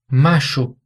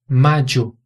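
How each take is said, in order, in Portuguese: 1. A consoante do meio é um som de zh. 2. A consoante do meio é um som de dj. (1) "como se fosse um som de J em português" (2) "um som que é bem próximo do D J em português"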